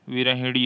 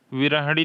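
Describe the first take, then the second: First: विरहिणी said with a clear short i after h; teacher stresses the short i in विरहिणी; correct spelling said aloud. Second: विरहणी said with no i sound after h; teacher reads out the wrong form विरहणी with no i after h; wrong spelling said aloud. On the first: Teacher corrects students, विरहिणी said with a short i. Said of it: "यहाँ पर छोटी ही लग जाएगी". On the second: Teacher shows students the wrong form, विरहणी said without i. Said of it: "विरहिणी होता है". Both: Shown as a demonstration.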